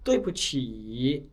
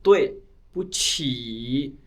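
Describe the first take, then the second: First: It is said joined together smoothly. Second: It is said broken into separate parts.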